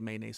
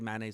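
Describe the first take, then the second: First: The word begins with a 'may' sound. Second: The word begins with a 'man' sound. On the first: "I say mayonnaise" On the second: "I don't say mayonnaise"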